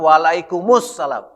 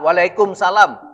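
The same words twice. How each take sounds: First: It links into 'us-salam', keeping the article sound. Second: It ends with plain 'salam', no article sound. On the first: The speaker calls it right. "yang benar ... Karena isimnya assalam" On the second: The speaker calls it wrong. "kita sering salah"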